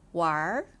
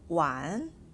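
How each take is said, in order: First: The word ends with an added r sound. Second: The word ends without an added r sound. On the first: "This is how people in Beijing are used to reading this verb with er like this" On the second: "It's pronounced as 玩"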